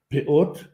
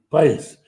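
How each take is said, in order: First: The word ends in a t sound. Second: The word ends in an s sound. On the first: "На современном иврите говорят «пеот»" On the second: "в ашкеназском произношении говорят «пейс» или «паэс»"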